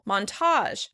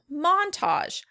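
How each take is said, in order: First: The stress is on the second syllable. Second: The stress is on the first syllable. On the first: "In American English, we tend to pronounce it on the second syllable" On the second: "In British English, this word tends to be pronounced on the first syllable"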